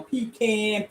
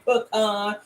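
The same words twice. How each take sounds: First: "pecan" said as PEE-can, with an ee first; pee-can pronunciation. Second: "pecan" said as puh-KAHN, with an open ah; puh-kahn pronunciation. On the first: Host playfully offers both names of her pie, pee-can pronunciation of "pecan". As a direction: say "pecan" with a long ee, then can. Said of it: "Some people say pecan". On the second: Host playfully offers both names of her pie, puh-kahn pronunciation of "pecan". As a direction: say "pecan" with a short first vowel, then kahn. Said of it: "some people say pecan". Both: Shown as a demonstration.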